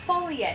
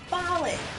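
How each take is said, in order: First: The word is said as three syllables, 'fully yet'. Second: The word is said as two syllables, 'falling'. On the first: The speaker calls it wrong. "It's not fully yet" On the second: The speaker calls it right. "it's falling"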